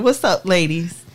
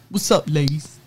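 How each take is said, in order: First: It is said in her own natural voice. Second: It is said in a put-on deep male voice. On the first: It is read as herself, not imitating anyone. "I will not" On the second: It imitates the man who wrote the email. "I feel like I need to read it in a man voice"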